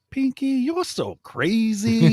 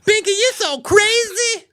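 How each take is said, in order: First: Squeaky falsetto, drawn out slowly; high cartoon squeal, slowed right down; mock high voice. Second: Very high, louder falsetto squeal; squeaky falsetto catchphrase. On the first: Podcast cohost requests the catchphrase, squeaky falsetto. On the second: Pretend. Host performs his catchphrase on request, piercing falsetto. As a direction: shriek it way up high like a morning zoo woman. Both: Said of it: "record you for an ad ... where you just say".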